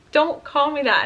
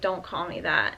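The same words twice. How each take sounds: First: Retold upset protest, higher and louder; imitating an upset, insistent repeat. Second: Said in the usual way. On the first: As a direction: raise pitch and volume, as if not heard the first time. Repeats louder, then starts bawling.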